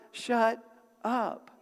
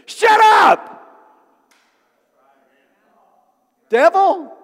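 First: "Shut" and "up" split by a pause, without shouting; controlled order, each word on its own: "Shut... up"; measured command. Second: Explosive high shout at the devil; shouted rebuke. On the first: Demonstrates telling the mountain off. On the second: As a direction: yell it full force, then pause before naming the enemy. Acted rebuke of the enemy. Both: Acted.

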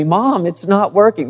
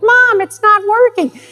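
First: Lightly voiced little boy, pitched higher; mild imitation of a frustrated child; frustrated third grader. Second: Put-on very high, squeaky little-boy whine; exaggerated imitation of a frustrated child in falsetto; whiny frustrated kid. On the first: Third grader complaining to Mom about his project, lightly frustrated. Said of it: "in the voice of little third grade Jeremy". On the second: Third grader whining to Mom about his project, hammed-up frustration. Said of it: "Maybe more like".

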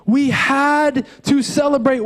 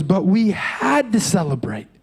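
First: "had to" slow and weighted, pressed hard; stress on had to. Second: Said in the usual way. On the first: Shown as a demonstration. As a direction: lean slowly on "had to", like it is a must. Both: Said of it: "Not just I wanted to".

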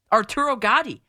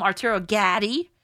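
First: "Gatti" with a broad AH, "GAH-dee", falling; Italian pronunciation. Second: "Gatti" as "GADDY", short A as in cat, rising; mock mispronunciation. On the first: Host naming the boxer to critics, Italian pronunciation. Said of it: "You say them in Italian too". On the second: Host mocking critics' logic, wrong pronunciation as a question. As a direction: misread "Gatti" with the vowel of cat. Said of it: "No, but that's how it looks". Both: Shown as a demonstration.

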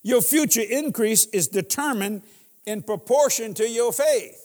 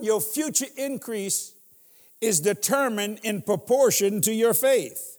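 First: "future" and "faith" stressed, a bit louder; repeated for emphasis. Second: Slow, every word weighed; slow dictation. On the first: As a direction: repeat it firmly, hitting "faith". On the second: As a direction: dictate it so they can write. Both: Shown as a demonstration. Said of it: "See, write this down".

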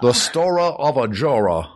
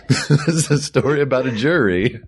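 First: Trailer voice. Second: Said in the usual way. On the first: Shown as a demonstration. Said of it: "repeats trailer-style". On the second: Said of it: "corrects to plain phrasing".

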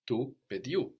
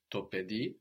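First: Tu pediu with final U stressed; stress moved to new ending. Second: To pedi with final DI stressed; stress on the end. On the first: Teacher shows accent moves, final u stressed in pediu. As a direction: land on the closing u of pediu. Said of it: "just it moves". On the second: Teacher compares both cases, final i stressed in pedi. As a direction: land on the last syllable of pedi. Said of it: "we have the accent on the end". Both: Shown as a demonstration.

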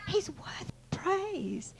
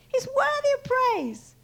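First: Soft, slow, raised-pitch awe; hushed reverence. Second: High, slow, ringing declaration; stretched, emphatic preacher's praise; full-voiced proclamation. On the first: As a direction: drop to a drawn-out hush. Proclamation repeated, first hushed. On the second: Proclamation repeated with more voice. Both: Shown as a demonstration.

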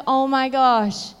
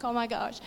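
First: Slow, drawn-out oh my gosh; slow amazement. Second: Hushed, held-back oh my gosh; stifled awe. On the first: Mother overwhelmed by her son's story, slow and amazed. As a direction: let the wonder stretch each word. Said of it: "And I was like". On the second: Mother in the car, hushed and holding back tears. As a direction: barely breathe it out, trying to hold it together. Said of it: "I'm trying to hold it all together". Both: Retold or imitated.

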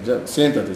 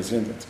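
First: A hint of an elderly father; old father, sit down. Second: Much softer, lower repeat of siéntate; siéntate dropped to a hush, lower and softer; faded sit down. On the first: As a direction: lower old father telling his son to sit. Father calms son. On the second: Acted. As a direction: let siéntate sink to almost nothing. Repeated, fading.

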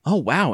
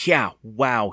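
First: High, loud amazed reaction; exclaiming. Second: Louder, unimpressed echo; sarcastic. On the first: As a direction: gasp out your amazement. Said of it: "Andy exclaimed". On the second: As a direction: throw it back with sarcasm. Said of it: "he repeated sarcastically". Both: A narrator's reading.

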